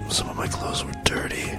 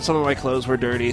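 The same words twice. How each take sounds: First: It is whispered. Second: It is spoken in a normal voice.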